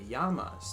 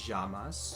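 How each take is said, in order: First: The double L sounds like an English y. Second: The double L sounds like a zh sound.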